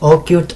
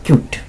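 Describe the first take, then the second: First: The name starts with an 'oh' sound. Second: The name starts directly with a 'k' sound.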